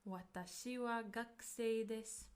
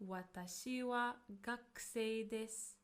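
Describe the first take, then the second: No difference in how they are said.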